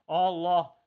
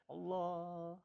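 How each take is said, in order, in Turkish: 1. Kelime yüksek bir sesle söylenir. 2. Kelime yumuşak, kısık bir sesle söylenir. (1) "Yüksek ses var. Mesela Allah, Allah, celali zikir" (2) "Bir de kısık sesle"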